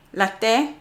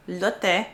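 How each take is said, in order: First: "Latte" read as "lah-teh" with a rising tune; first guess at "Latte" with a questioning rise; wrong reading. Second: "Latte" said as "lot-eh", rising as if checking; retry "Latte" with the vowel of "lot"; corrected reading. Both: Shown as a demonstration. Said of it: "You say L-E is like le".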